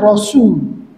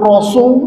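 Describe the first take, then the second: First: The s sound is light and thin. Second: The s sound is heavy and thick. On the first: The speaker calls it right. "tapi Rasul" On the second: The speaker calls it wrong. "bukan Rasul"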